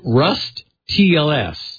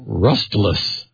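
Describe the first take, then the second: First: The ending is spelled out as separate letters. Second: The ending is blended into one word. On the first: "it's hard to pronounce this because we need two T's. It's Rust TLS" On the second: "So Rustless, I guess"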